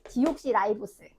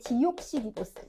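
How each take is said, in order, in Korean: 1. 'r' 뒤의 모음은 'eye'처럼 들려요. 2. 'r' 뒤의 모음은 'ee'처럼 들려요. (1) "영어를 아이 발음을 다 지금 아이 발음을 바꾸는 작용을 해서" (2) "여기 책에는 이제 디옥시리보스"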